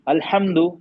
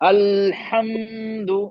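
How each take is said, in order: First: The word is said quickly without holding the sounds. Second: The sounds are stretched out far too long. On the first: "ये सही नहीं, थोड़ा सा मतलब रुकते हुए पढ़ना है सर।" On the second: "ज्यादा खींचे जा रहा है।"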